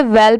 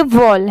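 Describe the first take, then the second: First: वेल said with a short e vowel, like the word well; wrong pronunciation. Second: वॉल said with an open aw vowel, like the word wall; correct pronunciation. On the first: Teacher showing students the common wrong reading of wall. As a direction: say वेल as a short e, the mistake learners make. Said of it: "but ये wrong है". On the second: Teacher giving students the right reading after the wrong one. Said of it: "ये वॉल है". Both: Shown as a demonstration.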